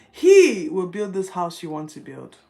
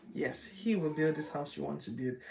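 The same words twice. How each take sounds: First: Loud and firm, every word weighted; booming God's promise. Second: Said in the usual way. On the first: Acted. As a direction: proclaim it like God speaking. Quoting God's promise, then repeating.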